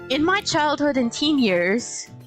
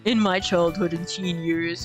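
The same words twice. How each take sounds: First: It is said in her normal voice. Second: It is said in a deep male voice.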